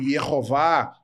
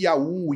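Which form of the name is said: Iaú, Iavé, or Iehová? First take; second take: Iehová; Iaú. First: It is said as three syllables, ye-ho-VAH. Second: It is said as two syllables, ya-OO. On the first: "Já foi aceitável o termo Iehová para o tetragrama, mas hoje não é mais" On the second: "e não aquela ideia de Iaú"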